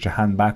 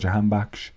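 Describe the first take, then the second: First: The surname ends with a plain k sound. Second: The surname ends with an sh sound.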